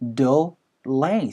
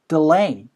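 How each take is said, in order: First: The first syllable has a full, clear vowel. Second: The first syllable is weak and barely heard. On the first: The speaker calls it wrong. "delay라고 하는 게 아니고" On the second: The speaker calls it right. "delay 사운드로 delay"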